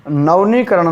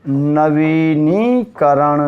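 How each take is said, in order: First: नवनीकरण with "nav-nee", missing the vee syllable; wrong form. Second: नवीनीकरण very slowly, "na-vee-nee-karan"; correct form, drawn out. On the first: Teacher showing students the mistaken form, syllable dropped. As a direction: say नवनीकरण run together as "navnee-karan". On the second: Teacher correcting a misspelt word for students, syllable by syllable. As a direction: stretch both long ī sounds in नवीनीकरण. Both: Shown as a demonstration. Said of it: "नवनीकरण नहीं जी".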